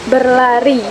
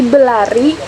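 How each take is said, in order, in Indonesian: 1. Bunyi r sebelum l diucapkan. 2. Bunyi r sebelum l dihilangkan. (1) "ditulis lengkap" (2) "kita pengucapannya cepat, jadi sepertinya terdengarnya tuh seperti belari"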